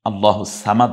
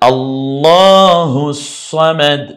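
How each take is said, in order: First: The s sound is single, not joined. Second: The s sound is doubled, joined to hu. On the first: The speaker calls it wrong. "আল্লাহু সামাদ বলবেন না" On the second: The speaker calls it right. "হু থেকে সদের কাছে চলে আসবো একবার জজমের মতো"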